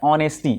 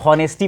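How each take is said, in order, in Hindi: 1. यह शब्द स्वर से शुरू होता है, एच से नहीं। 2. यह शब्द एच की ध्वनि से शुरू होता है। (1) "इसका प्रोनाउंस क्या होता है ऑनेस्टी" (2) "अब यदि हमारा प्रोनाउंस यदि गलत हो जाएगा"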